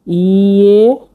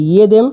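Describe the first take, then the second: First: "ইয়েদেম" said very slowly, first syllable stretched long with a "ye" sound; drawn-out pronunciation demo. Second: Said in the usual way. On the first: Shown as a demonstration. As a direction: stretch the opening of "ইয়েদেম" for a learner, rising. ("ইয়েদেম" ধীরে, টেনে টেনে উচ্চারণ) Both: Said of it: "এটা যেটা ইয়ে উচ্চারণ হবে".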